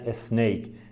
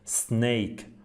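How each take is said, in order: First: An extra vowel comes before the first s. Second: The word starts straight on the s sound. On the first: The speaker calls it wrong. "مثلا میگن اسنیک" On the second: The speaker calls it right. "اس تلفظ نمیشه، سه تلفظ میشه"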